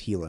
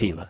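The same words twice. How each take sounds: First: The word begins with an H sound. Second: The word begins with a hard G sound. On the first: The speaker calls it right. "you said the G like an H. You pronounced it correctly" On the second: The speaker calls it wrong.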